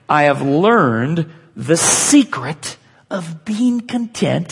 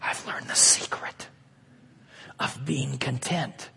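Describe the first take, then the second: First: It is said in a normal full voice. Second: It is said in a hushed whisper.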